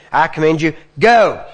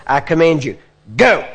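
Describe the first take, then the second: First: Wrong way, just yelling. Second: Firm command, go punched loud; forceful from the belly. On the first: Preacher showing the wrong, throat-yelled command, loud. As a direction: shout it from the throat. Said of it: "You don't say". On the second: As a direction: hit go from the belly. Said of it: "You wanna hit from here". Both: Shown as a demonstration.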